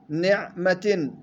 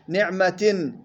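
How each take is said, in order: The two takes are said the same way.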